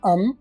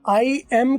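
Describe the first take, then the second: First: It is reduced to a single short syllable. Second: It is said in full as two syllables. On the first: "एम का ए हट जाएगा और आई के साथ ये एम मिलके अम बन जाएगा" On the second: "आई एम की बजाय"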